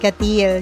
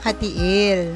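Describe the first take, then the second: First: The second syllable sounds like 'steel'. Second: The second syllable does not sound like 'steel'. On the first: The speaker calls it wrong. "Binasa namin siya na parang steel" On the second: The speaker calls it right. "Yun pala"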